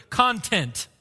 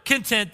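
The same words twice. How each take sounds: First: Content, stress on the first syllable, CON-tent. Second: Content, stress on the second syllable, con-TENT. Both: Shown as a demonstration. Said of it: "put the emphasis on a different syllable".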